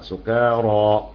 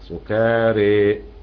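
First: The final vowel is an open a sound. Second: The final vowel is fully inclined toward e. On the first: "بالفتح" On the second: "فيها شفه حطملة حمزه وكساء وخلف وابو عمرو"

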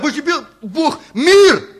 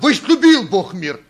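First: The stress falls on the word мир. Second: The stress falls on the word возлюбил. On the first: The focus is on the world that was loved. "будем говорить о мире" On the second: The focus is on the love itself. "И говорить о любви"

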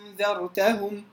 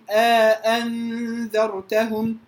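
First: The second hamza becomes a long vowel. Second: Two full hamzas with an alif inserted between. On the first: "الإبدال حرف مد" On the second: "التحقيق مع الإدخال"

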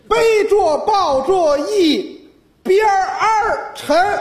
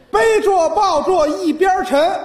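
First: An r sound is added after yibian. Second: Said plainly, with no r sound after yibian.

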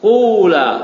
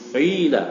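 First: The first vowel is a clear u sound. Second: The first vowel falls between u and i. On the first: "Ain fi'ilnya didomakan" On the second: "antara dhamma dengan kasrah"

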